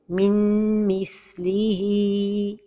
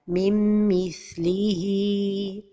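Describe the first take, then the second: First: The n is pronounced clearly. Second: The n merges with no nasal hold. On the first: "Un autre exemple de- d'erreur est de prononcer an-noun" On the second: "L'erreur et la prononciation sont données de temps pour la ghunna"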